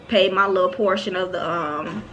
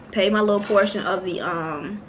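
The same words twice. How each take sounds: The two takes are said the same way.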